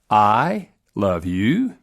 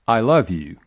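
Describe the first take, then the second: First: The voice rises at the end. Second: The voice falls at the end.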